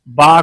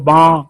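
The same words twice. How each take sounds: First: The sound comes out through the mouth. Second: The sound comes out through the nose.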